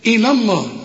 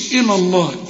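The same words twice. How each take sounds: First: إلى light with heavy الله; correct reading. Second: إلى الله said faultily; wrong reading. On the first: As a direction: recite إلى الله properly. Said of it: "هنقول إلى". (إلى الله بتفخيم لفظ الجلالة) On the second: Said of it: "ما نقولش". (النطق الغلط) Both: Shown as a demonstration.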